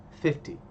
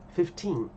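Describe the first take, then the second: First: "fifty" with a stressed first syllable and short "ty". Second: "fifteen" with a long, stressed second syllable; stress on TEEN. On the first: Teacher contrasts it with fifteen, stress on first syllable FIF. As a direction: hit the start: FIF-ty. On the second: Teacher contrasts it with fifty, stress on final TEEN. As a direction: lean on the end: fif-TEEN. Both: Shown as a demonstration. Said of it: "ó a diferença".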